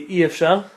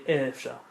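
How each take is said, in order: First: The first vowel is an 'ee' sound. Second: The first vowel is an 'ay' sound. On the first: "the Sfaradim say I efshar"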